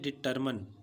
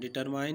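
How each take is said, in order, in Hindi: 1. आखिरी शब्दांश में छोटा, हल्का स्वर है। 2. आखिरी शब्दांश में लंबा "eye" स्वर है। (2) "सबसे ज़्यादा स्टूडेंट्स इस वर्ड को गलत बोलते हैं, डिटरमाइन बोलते हैं। डिटरमाइन नहीं"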